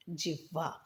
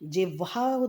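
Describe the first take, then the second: First: The h sound comes before the v. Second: The v sound comes before the h. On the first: The speaker calls it right. "ह आधा होता है और वह पूरा होता है" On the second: The speaker calls it wrong. "व आधा नहीं आता"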